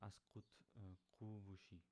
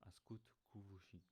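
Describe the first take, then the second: First: Kuvushi opening on the harder q, not plain k; original Arcanian q. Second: Kuvushi opening on an ordinary English k; simplified k. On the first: Teacher gives lost travelers a question, kuvushi with q. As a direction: begin kuvushi with the difficult Arcanian q. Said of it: "If you cannot pronounce the k sound". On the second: Teacher offers learners an easier question, kuvushi with plain k. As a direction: begin kuvushi with an easy plain k. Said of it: "again, you can just say". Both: Shown as a demonstration.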